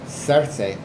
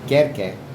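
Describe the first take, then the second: First: The name begins with a soft S sound. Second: The name begins with a hard K sound. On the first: This is the Greek form of the name. "Circe is Greek" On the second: This is the Latin form of the name. "Kerke, that's Latin. ... all C's, hard K"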